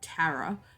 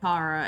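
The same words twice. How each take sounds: First: The name is said in an American way. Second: The name is said in a non-American way.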